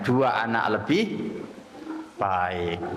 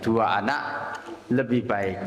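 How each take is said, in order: First: The pause comes after the word lebih. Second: The pause comes after the word anak. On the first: More than two children is good. The speaker calls it right. "Tapi kita geser komanya" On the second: Two children is better. The speaker calls it wrong. "masih ada semboyannya"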